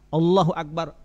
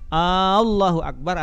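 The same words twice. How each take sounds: First: The opening vowel of Allah is kept short. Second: The opening vowel of Allah is drawn out long. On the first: It firmly states that God is great. The speaker calls it right. "padahal Allahu akbar, Allah maha besar. Itu jazam, yakin pasti" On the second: It asks whether God is truly great. The speaker calls it wrong. "Tapi kalau Allahu akbar apa artinya? Apakah benar Allah itu maha besar?"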